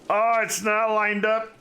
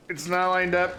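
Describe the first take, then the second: First: Sudden high, loud dismay; surprised. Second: Said in the usual way. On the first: Real, not acted. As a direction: blurt it out, shocked. Sees road misaligned, exclaims.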